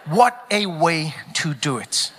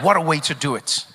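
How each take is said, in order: First: Low and drawn out, word by word; slow, savoured repeat. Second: Said in the usual way. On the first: Real, not acted. Comedian repeating the line to the crowd for effect, slowly and deliberately. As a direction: let each word land slowly.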